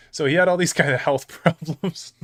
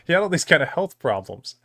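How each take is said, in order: First: Real laugh breaking into the words. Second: Said in the usual way. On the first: Real, not acted. Streamer laughing at coworker's health story, laughing. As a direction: crack up while trying to tell it. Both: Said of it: "Now I'm laughing about it".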